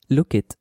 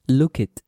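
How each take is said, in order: The two takes are said the same way.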